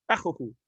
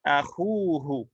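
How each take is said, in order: First: Akhuhu quick, both u's short; short-vowel form. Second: Akhuhu slow, khu held long; long-vowel form. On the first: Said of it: "to pronounce it without that would be difficult". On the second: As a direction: stretch the first oo in akhuhu. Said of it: "but with a letter". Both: Shown as a demonstration.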